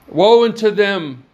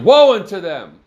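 First: It is said plainly, without exclamation. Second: It is said forcefully, like an exclamation.

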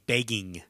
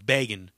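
First: Every vowel is exaggerated and over-enunciated. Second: The word is said in a plain, normal way. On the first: "they're going to say begging. Like, really hit every" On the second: "Instead of going"

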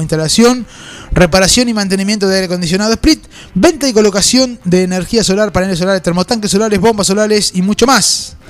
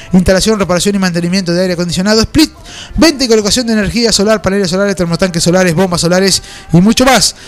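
No difference in how they are said.

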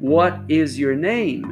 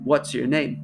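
First: It is said slowly, every word full. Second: It is said quickly, contracted.

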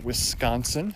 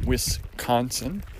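First: It is said with the local Wisconsin pronunciation. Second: It is said with the outsider's pronunciation. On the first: The speaker is from the state. "they will pronounce it Wisconsin" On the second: The speaker is not from the state. "rather than Wisconsin"

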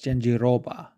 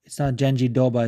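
First: The R sound is clearly pronounced. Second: The R sound is not clearly pronounced. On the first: The speaker calls it right. "Like the R is there" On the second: The speaker calls it wrong. "it's not Janjiroba"

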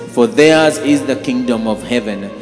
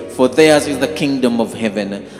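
Both takes have the same delivery.

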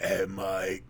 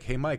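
First: It is said as if talking through a burp. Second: It is said in a normal speaking voice.

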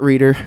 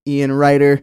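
First: The first vowel sounds like 'ee'. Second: The first vowel sounds like 'eye'. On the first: The speaker calls it wrong. "not Reader" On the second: The speaker calls it right. "Ian Ryder, not Reader"

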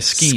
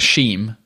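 First: The word begins with an 'sk' sound. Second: The word begins with an 'sh' sound. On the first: The speaker calls it right. "you'd say a scheme" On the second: The speaker calls it wrong. "you wouldn't say a sheem"

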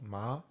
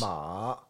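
First: The pitch rises from mid to high. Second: The pitch dips low then rises again. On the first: It means numb. "Second tone" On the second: It means horse. "So you go down, you go up"

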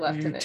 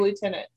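First: It is said with the British pronunciation. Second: It is said with the American pronunciation. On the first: "they say lieutenant" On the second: "we say lieutenant"

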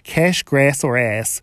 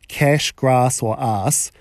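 First: It is spoken in an American accent. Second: It is spoken in a New Zealand accent.

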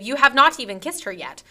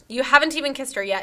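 First: The words 'have not' are said in full. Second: The words 'have not' are contracted to 'haven't'. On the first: The speaker calls it wrong. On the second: The speaker calls it right.

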